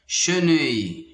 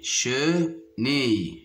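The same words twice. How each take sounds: First: Said in the usual way. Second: "chenille" slowly split as che, pause, nille; syllable by syllable. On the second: Shown as a demonstration. Teacher locating a sound for pupils, "chenille" split apart. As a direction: break "chenille" into two slow syllables. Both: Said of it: "se trouve dans la deuxième".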